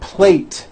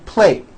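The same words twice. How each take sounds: First: The final T sound is clearly released. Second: The final T sound is dropped. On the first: The speaker calls it right. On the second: The speaker calls it wrong.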